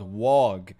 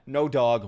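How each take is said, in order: First: "Wog" said with a w in place of the d of dog; funny mispronounced "Wog". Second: Said in the usual way. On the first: Shown as a demonstration. Playfully renaming the dog for chat as "Wog". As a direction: swap the d for a w and say "Wog". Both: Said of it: "Wog in the chat".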